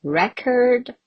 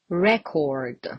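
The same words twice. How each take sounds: First: "record" as REK-erd, weak second vowel; reduced second vowel. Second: "record" as REK-ord, clear O; full O vowel. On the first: Teacher allowing two noun forms, "record" said REK-erd. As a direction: stress the start of "record" and end on -erd. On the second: Teacher allowing two noun forms, "record" said REK-ord with an O. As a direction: stress the start of "record", keep a round O in -cord. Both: Shown as a demonstration. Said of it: "You can also pronounce this one as O".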